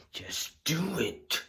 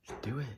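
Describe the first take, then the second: First: Just do it drawn out slow and high; stretched coaxing. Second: Said in the usual way. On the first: Acted. Urging the viewer to click, slow and high.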